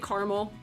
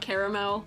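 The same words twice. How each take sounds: First: The word is squeezed into fewer syllables. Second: The word is said with three full syllables. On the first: This is the speaker's own northern way. "why do you say caramel like it's one syllable?" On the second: This is the way others expect. "caramel is three syllables"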